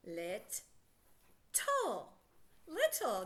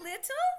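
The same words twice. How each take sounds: First: "Lit-tle" in two separate parts with a long pause between; split into syllables. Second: Said in the usual way. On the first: Shown as a demonstration. Teacher reading the word part by part, split into syllables. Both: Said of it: "Let's read just the first part".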